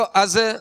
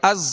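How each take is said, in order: First: The final consonant is soft, without a whistling hiss. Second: The final consonant is firm, with a whistling hiss. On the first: The speaker calls it wrong. "ऐसे नहीं पढ़ना" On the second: The speaker calls it right. "बल्कि अज। ... इसमें सीटी की आवाज होगी, जा को सख्ती से अदा करना है"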